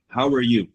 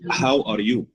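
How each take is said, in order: First: The words are reduced and run together. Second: Each word is said fully and separately. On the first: "I think it's going to be read like this" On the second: "usually the common pronunciation between newly, uh, you know, English speakers"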